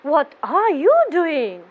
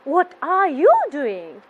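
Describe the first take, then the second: First: The voice sounds pleased. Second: The same.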